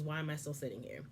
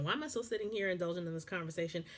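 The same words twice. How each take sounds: First: Quiet, wondering inner question; soft inner question. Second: Rushed, fed-up rhetorical question; fast exasperated question. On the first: Host voicing the wife's silent thought, quietly. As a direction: ask it softly to yourself. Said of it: "The question you should be asking is". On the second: Host asking her own question, quick and fed up. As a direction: fire it off impatiently. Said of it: "That would be my question". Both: Shown as a demonstration.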